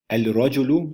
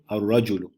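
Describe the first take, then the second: First: The l is pronounced clearly before r. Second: The l is blended into a doubled r sound.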